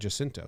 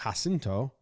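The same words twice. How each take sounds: First: The name begins with a hard J sound. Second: The name begins with a soft J sound. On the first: The speaker calls it right. "pronounced it Jacinto and San Jacinto. So it's a hard J" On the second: The speaker calls it wrong. "I would have done a soft J like Jacinto"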